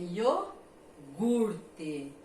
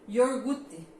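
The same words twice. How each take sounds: First: No R sound follows the first syllable. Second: An extra R sound follows the first syllable. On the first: The speaker calls it right. "É iogurte" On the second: The speaker calls it wrong. "Não é esse ior ou R aqui"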